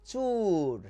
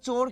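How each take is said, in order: First: The vowel is a 'u' sound. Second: The vowel is an 'o' sound. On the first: This is the regional form used in the speaker's area. The speaker calls it wrong. "আমাদের এলাকায় কি বলে জানেন? চুর" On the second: This is the standard form of the word. The speaker calls it right. "শব্দটা হচ্ছে চোর"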